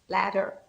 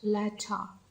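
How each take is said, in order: First: It is said in an American accent. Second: It is said in a British accent. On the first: "I love the sound such as ladder" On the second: "in comparison with British accent"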